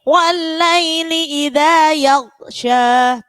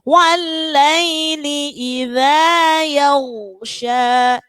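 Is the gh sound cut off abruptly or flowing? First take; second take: cut off; flowing. First: The gh sound is cut off abruptly. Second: The gh sound flows smoothly into the next. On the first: The speaker calls it wrong. "kebanyakan kita bacanya gini" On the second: The speaker calls it right. "padahal harus mengalir"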